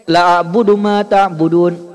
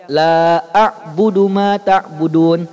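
First: "la a'budu" with a short clipped la; short vowel. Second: "la a'budu" with the la drawn long, slow; long vowel. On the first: Teacher showing wrong short la. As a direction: cut the la short. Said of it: "Tapi kalau Bapak bacanya pendek". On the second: Teacher showing long la for students. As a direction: stretch the la long. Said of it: "Kalau Bapak bacanya panjang". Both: Shown as a demonstration.

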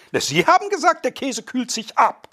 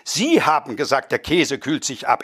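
First: Sie haben gesagt pitched much higher; indignant high mock quote; high indignant quoting. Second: Said in the usual way. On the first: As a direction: throw the claim back in high indignation. Guest quotes the other's claim.

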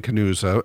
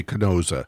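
First: "Canusa" with an oo in the middle; local pronunciation. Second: "Canosa" with an oh in the middle; phonetic pronunciation. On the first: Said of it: "I grew up saying". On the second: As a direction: say "Canosa" as spelt, long o. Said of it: "the phonetic pronunciation". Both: Shown as a demonstration.

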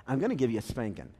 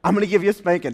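First: Low, quiet warning from the dad; understated fatherly threat, kept down; mild dad threat. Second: Louder stern dad warning; louder dad threat. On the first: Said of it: "Dad says". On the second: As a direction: retell the threat with more force. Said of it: "So he says". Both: Retold or imitated.

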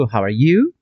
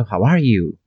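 First: "How are you?" with the pitch rising on "you"; "How are you?" ending upward on "you"; rising intonation. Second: "How are you?" with "are" emphasized, then falling; "How are you?" peaking on "are", falling away; stress on ARE. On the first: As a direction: lift the end of "you" like a question. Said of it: "você pode dizer tanto". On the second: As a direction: lean on "are" and drop on "you". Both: Shown as a demonstration.

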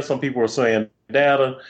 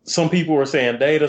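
First: Data pronounced DAH-tuh; data, no "day" sound in it; short-a DATA. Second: Data pronounced DAY-tuh; data, first vowel as in "day"; long-a DATA. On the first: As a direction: say data with an open "dah" first syllable. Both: Shown as a demonstration. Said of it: "whether they were gonna call data".

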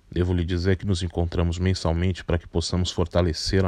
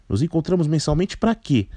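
First: Lower, measured, patient voice; calm older man. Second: Put-on higher, cheeky, grumpy girl voice; grumpy young woman. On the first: Acted. Carpinteiro answers calmly. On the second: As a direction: sneer the question like a fed-up teen. Barata mocks the meetings.

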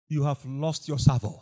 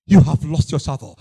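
First: A much lower, softer rebuke; hushed rebuke. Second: The same rebuke at full preaching volume; firm rebuke. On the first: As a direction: lay it down quietly and heavily. Repeated rebuke, first take hushed. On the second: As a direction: hit it hard the second time. Repeated rebuke, second take full. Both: Acted.

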